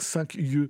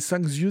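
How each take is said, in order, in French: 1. Les deux mots sont prononcés sans liaison. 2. Les deux mots sont reliés par une liaison. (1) "sans liaison comme ça" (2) "On dirait cinq yeux, ça irait"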